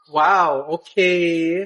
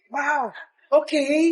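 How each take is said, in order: First: It sounds mocking and sarcastic. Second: It sounds warm and supportive.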